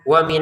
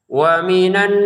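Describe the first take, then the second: First: The nasal sound is short, not held. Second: The nasal hum is held for two counts. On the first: The speaker calls it wrong. "Jangan sekedar" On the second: The speaker calls it right.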